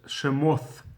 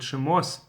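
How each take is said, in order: First: The word ends with a th sound. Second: The word ends with an s sound.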